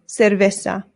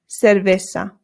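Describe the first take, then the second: Both takes have the same delivery.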